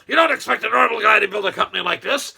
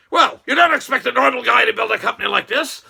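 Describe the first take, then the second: First: Said in the usual way. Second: Loud emphatic boast, rising on "don't"; the boss answering the interviewer, punching "don't" loudly and rising; retold boast. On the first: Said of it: "Okay, I repeat that". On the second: Musk answering the interviewer, a loud proud retort. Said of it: "and he says".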